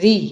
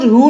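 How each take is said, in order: First: The syllable ends in an ee vowel. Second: The syllable ends in an oo vowel. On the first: This is how it is said in Hindi. The speaker calls it right. "लेकिन हिंदी में उसको री कहते हैं" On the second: This is how it is said in Gujarati. The speaker calls it wrong. "उसको रू नहीं बोला जाता बच्चों"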